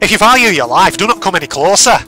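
It is said in a Scottish accent. "What about a Scottish accent?"

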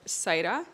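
The name is said with Spanish pronunciation.

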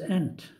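It is said with an American pronunciation. The speaker calls it wrong.

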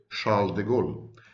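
The name is given a French pronunciation. "when in French we would say"

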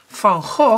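The name is said the Dutch way.

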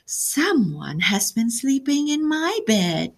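It is said in Mama Bear's medium voice.

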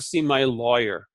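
The first vowel of lawyer sounds like 'law'. "so we say lawyer"

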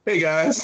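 The voice is high, going up in pitch.

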